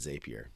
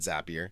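First: The name does not rhyme with happier. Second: The name rhymes with the word happier. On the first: "most people actually pronounce it Zapier" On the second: "I call it Zapier. Because at one point they had a motto that said Zapier makes you happier"

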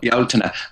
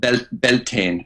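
First: It is said with the Irish pronunciation. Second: It is said with the North American pronunciation. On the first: "The original and real name of that festival is actually Beltane, is what we call it" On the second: "it's easier understood called Beltane in the United States and in Canada"

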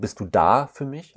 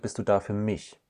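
First: The stress is on the word da. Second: The stress is on the word mich.

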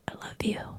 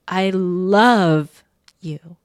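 First: It is said very quietly. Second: It is said at normal loudness.

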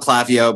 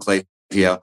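First: The name is given a non-American pronunciation. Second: The name is given the American pronunciation. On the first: "I like to call it Klaviyo" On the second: "the Americans call it Klaviyo"

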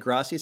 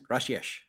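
First: The s is said as a plain s. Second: The s is lisped, Spain-style.

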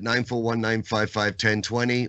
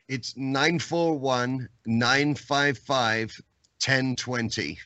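First: The number is said fast. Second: The number is said slowly.

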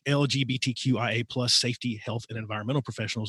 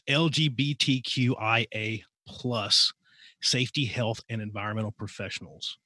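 First: The phrase is spoken quickly. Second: The phrase is spoken slowly. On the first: "I get really fast" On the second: "say that one more time, a little bit slower"

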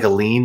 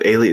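First: It is said with two syllables, 'uh-leen'. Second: It is said with three syllables, 'ay-lee-en'. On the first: It means a legal claim on property. "like in you put a lien on a property" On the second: It means a foreigner or outsider. "instead of alien"

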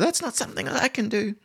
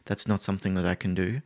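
First: It is said louder, higher and faster. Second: It is said quietly, low and slowly.

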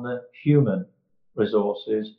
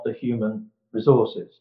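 First: The word human carries the stress. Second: The word resources carries the stress. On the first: The people matter more than their use as assets. The speaker calls it right. "the emphasis has to be on the human" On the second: People are treated mainly as assets to be used. The speaker calls it wrong. "not on the resources"

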